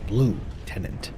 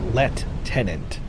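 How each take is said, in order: First: It is said with an ordinary, non-British pronunciation. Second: It is said with a British-style pronunciation. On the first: "not lieutenant" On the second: "Isn't the way they say lieutenant a uh, British way of saying it"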